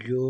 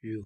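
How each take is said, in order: First: یو pronounced "yoh", ending on an o sound; yo vowel demonstration. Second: یو pronounced like English "you"; yu vowel demonstration. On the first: Teacher naming an underneath vowel to learners, clear "yo" demonstration. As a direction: say یو as "yo", with a y-glide into long o. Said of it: "اور یہ ہے یو". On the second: Teacher naming the last underneath vowel, clear "yu" demonstration. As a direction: say یو as "yoo", with a y-glide into long u. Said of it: "اور یہ ہے". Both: Shown as a demonstration.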